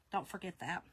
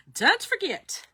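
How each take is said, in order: First: Said in the usual way. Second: High, punched "Don't forget"; emphatic reminder. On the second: Real, not acted. Host reminding viewers of the member discount, high and emphatic.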